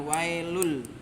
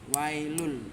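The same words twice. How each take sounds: No difference in how they are said.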